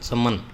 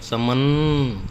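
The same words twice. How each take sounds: First: The word ends on the consonant n. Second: An 'a' vowel is heard after the final n. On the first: The speaker calls it right. "ऐसे बोलते हैं चमन, तो ए की मात्रा सुनाई नहीं देती" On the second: The speaker calls it wrong. "ऐसे बोले हम चमन, तो ए की मात्रा सुनाई देती है"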